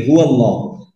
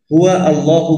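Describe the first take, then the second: First: হুয়াল্লাহু run together as one word, with no hamza sound before আল্লাহু; joined correct form. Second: হুয়া আল্লাহু said as two separate words with a break before আল্লাহু; wrong separated form. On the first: Teacher giving the correct reading, হুয়াল্লাহু joined smoothly. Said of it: "আমরা কি বলি?". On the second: Teacher showing the wrong reading, হুয়া আল্লাহু split apart. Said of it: "হুয়া আল্লাহু বলি না আমরা". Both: Shown as a demonstration.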